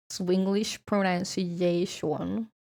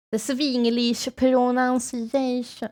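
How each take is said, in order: First: "Swinglish pronunciation" drawn out slowly with Swedish vowels; slow, lightly Swedish-accented English. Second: "The Swinglish pronunciation" slow, with "Swinglish" as "svinglish" and a stretched "pronunciation"; slow, mock-Swedish accented English. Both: Shown as a demonstration.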